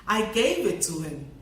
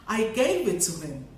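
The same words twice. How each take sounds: Both takes have the same delivery.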